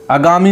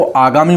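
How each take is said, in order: First: आगामी with a short first a; wrong pronunciation. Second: आगामी with a long opening aa; correct pronunciation. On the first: Teacher shows students what not to say, short-vowel mispronunciation. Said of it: "नहीं बोलते". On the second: Teacher gives students the accepted form, long opening vowel. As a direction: stretch the first vowel of आगामी. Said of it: "उसको आगामी बोलते हैं". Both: Shown as a demonstration.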